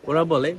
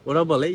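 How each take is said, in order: No difference in how they are said.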